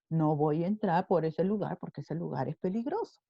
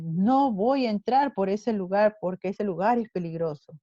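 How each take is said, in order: First: It is said with changed, emphatic intonation. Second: It is said in a plain, ordinary way.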